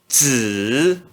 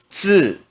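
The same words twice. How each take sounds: First: The pitch dips low then rises. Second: The pitch falls sharply from high. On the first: "No terceiro tom" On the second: "E no quarto tom"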